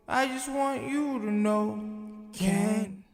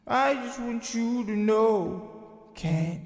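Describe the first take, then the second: No difference in how they are said.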